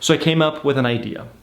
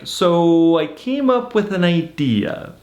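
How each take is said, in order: First: It is said in a serious tone. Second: It is said in a playful tone. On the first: Something meaningful is about to happen. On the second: Something funny is about to happen.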